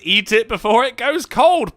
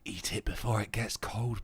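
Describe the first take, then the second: First: It is spoken in a normal voice. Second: It is spoken in a whisper.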